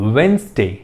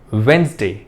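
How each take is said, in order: Both takes have the same delivery.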